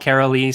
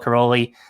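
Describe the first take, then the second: First: The name is said the American way. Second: The name is said the Hungarian way. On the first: "the American version" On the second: "that's how he pronounced it"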